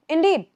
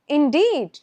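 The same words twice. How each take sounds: First: It sounds relaxed and conversational. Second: It sounds forced and exaggerated. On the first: The speaker calls it right. "Just like" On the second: The speaker calls it wrong. "Don't make it sound weird like that"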